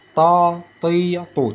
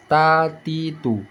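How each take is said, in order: First: "ta, ti, tu" with tongue root raised; heavy, dark emphatic T in "ta, ti, tu"; thick ta. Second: "Ta, ti, tu" with tongue root pressed down; light, thin T in "Ta, ti, tu". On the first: Teacher contrasting two letters, "ta, ti, tu" made thick without pouting. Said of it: "Kita naikkan pangkal lidah". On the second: Teacher contrasting two letters, "Ta, ti, tu" kept thin. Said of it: "Tekan ke bawah". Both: Shown as a demonstration.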